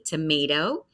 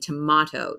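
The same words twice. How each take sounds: First: The middle vowel is a long 'ay' sound. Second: The middle vowel is a short 'ah' sound. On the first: "that long A" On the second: "So a shorter A sound"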